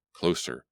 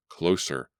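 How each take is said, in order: Both takes have the same delivery.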